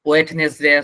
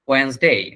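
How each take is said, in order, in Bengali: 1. তিনটি সিলেবল, মাঝখানে 't' ধ্বনি আছে। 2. দুটি সিলেবল, মাঝের সিলেবলটি বাদ যায়। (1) "এটা একটাও না" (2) "এটার উচ্চারণ হচ্ছে ওয়েন্সডে"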